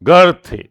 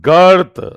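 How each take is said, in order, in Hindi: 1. यह एक अक्षर है, 'ur' स्वर के साथ। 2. यह एक अक्षर है, 'ur' स्वर के साथ।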